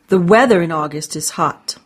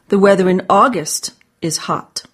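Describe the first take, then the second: First: The word weather is stressed. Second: The word August is stressed. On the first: It is the weather, not the sun, that is hot. "Not the sun" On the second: It is this month, not another month, that is hot. "Not July"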